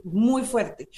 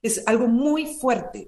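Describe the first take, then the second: First: Quieter repeat, "muy fuerte" let fall; soft falling echo; softer echo. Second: Slow, leaning hard on "muy"; "es algo muy fuerte", drawn out with weight on "muy"; slow emphasis. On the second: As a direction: stress "muy" slowly. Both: Real, not acted.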